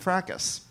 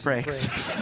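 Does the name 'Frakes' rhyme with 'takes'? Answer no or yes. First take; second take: no; yes. First: The name does not rhyme with 'takes'. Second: The name rhymes with 'takes'. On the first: This is the mistaken belief about the name. The speaker calls it wrong. "I thought his name was Jonathan Frakes" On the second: This is the actual name. The speaker calls it right. "Because his name is Jonathan Frakes"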